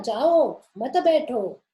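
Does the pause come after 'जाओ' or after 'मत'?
after जाओ. The pause comes after जाओ: go, don't sit.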